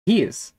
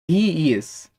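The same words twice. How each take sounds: First: "he is" merged into one short "he's"; contracted form. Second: "He is" as two distinct words; full form. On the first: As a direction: run "he is" together as one syllable. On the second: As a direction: keep "He is" uncontracted. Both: Shown as a demonstration. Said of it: "podemos falar também é sobre as contrações".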